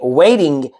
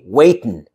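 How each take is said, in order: First: The word ends with a full 'ing' sound. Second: The word ends with a plain 'n' sound. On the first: "Instead of saying waiting" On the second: "you say waitin'"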